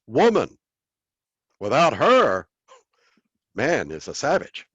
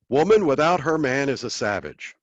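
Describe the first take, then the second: First: There are pauses after 'woman' and after 'her'. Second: It is said as one phrase without pauses. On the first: A man is lost without a woman. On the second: A woman is lost without a man.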